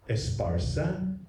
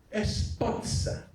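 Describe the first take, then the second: First: Said in the usual way. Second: "Esparza" slow, high and breathy, with "-tsa" at the end; old Chamorro "Esparza" as "Espatsa"; Chamorro pronunciation. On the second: Shown as a demonstration. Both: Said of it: "How would a Chamorro hundred years ago say".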